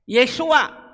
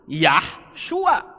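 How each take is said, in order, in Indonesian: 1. Nama itu diawali dengan suku kata 'Ye'. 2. Nama itu diawali dengan suku kata 'Yah'. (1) "Yesua, bukan Yahshua" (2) "bukan Yahshua"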